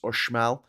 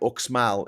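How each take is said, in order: First: The middle consonant is said as 'sh'. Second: The middle consonant is said as 'ks'. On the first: "is pronounced" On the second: "what looks like"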